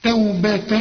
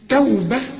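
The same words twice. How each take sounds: First: The word ends with a nasal n sound. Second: The word ends with a soft h sound. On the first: The word is joined to the next word. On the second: The reciter stops on the word.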